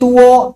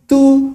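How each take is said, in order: First: It is said with Indonesian-style pronunciation. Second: It is said with English pronunciation. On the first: The speaker calls it wrong. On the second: The speaker calls it right.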